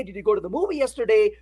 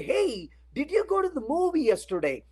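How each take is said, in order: First: The question rattled off fast; quick retelling. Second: Higher, casual friendly question. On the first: Recapping the friend's question to the class, fast. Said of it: "So when you say". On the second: Asking a coworker about last night's movie, casually. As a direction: ask it like a curious friend. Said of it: "You look at them and say". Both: Retold or imitated.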